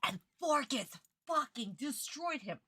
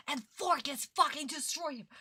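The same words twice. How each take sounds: First: Said in the usual way. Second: Louder and higher, furious at the dub; outraged repeat. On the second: Real, not acted. Streamer venting at Forkis for ruining Yugi, furious. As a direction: hurl it out in real outrage.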